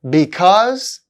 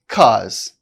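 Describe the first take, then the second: First: The word is said with both syllables. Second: The first syllable is dropped.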